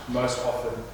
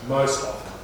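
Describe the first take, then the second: The two takes are said the same way.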